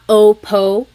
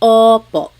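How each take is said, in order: First: The O vowel is narrower and less open. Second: The O vowel is wide open and pushed back. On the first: The speaker calls it wrong. "It's not opo" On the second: The speaker calls it right. "it's opo"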